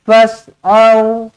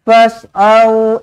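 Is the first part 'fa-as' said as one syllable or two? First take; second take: one; one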